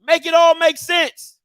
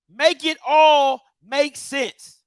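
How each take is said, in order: First: Loud, high, fed-up demand; exasperated shout. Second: Very slow, every word spaced out; slow emphatic repeat. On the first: Ranting at HBCUs about money, a loud exasperated shout. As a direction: throw it out at the schools, fed up. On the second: Repeating his demand to the schools, slow and deliberate. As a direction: spell it out word by word. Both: Real, not acted.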